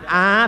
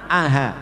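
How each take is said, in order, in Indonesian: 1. Ini vokal panjang biasa, tanpa hentian. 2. Ini bunyi yang dilunakkan, di antara hentian dan vokal. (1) "Kalau kita baca alif jadinya a panjang" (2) "tapi aha"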